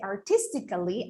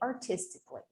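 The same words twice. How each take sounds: First: The a before the final ly is pronounced. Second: The a before the final ly is silent. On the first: The speaker calls it wrong. "I would not say artistically" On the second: The speaker calls it right. "I would say artistically"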